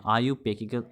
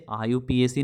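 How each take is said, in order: First: आईयूपैक said as one word, "ayu-pack"; correct pronunciation. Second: आईयूपीएसी spelled out letter by letter, I-U-P-A-C; wrong pronunciation. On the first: Teacher gives students the right way, one smooth word. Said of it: "इसका जो pronunciation होता है". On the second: Teacher shows students the wrong way, letters spelled out. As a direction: say आईयूपीएसी as separate letters, the way not to say it. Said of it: "इसे आईयूपीएसी नहीं बोलते हैं". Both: Shown as a demonstration.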